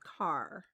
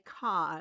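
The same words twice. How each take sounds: First: It is said in a general accent. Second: It is said in a Boston accent. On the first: This is the usual way to say it. "instead of car" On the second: This is how the Boston colleague said it. "He'd always say car"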